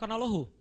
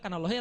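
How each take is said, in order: First: Allah ends with a final u vowel. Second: Allah ends without a final vowel. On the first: The speaker calls it right. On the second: The speaker calls it wrong. "pasti sudah salah"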